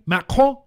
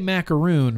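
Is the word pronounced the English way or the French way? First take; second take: French; English. First: The word is said with a French pronunciation. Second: The word is said with an English pronunciation. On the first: The speaker calls it right. "French pronunciation, Macron" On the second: The speaker calls it wrong. "I say macaroon, but it's not macaroon"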